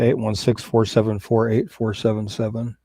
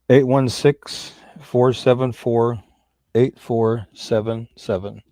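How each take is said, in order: First: The number is said at normal, quicker pace. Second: The number is said slowly and deliberately.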